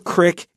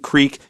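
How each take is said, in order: First: The word is said with a short i vowel. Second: The word is said with a long ee vowel. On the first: "You might hear crick" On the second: "I think naturally I want to say creek"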